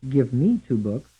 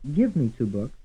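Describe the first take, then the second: First: The stress is on the word me. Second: The stress is on the word give.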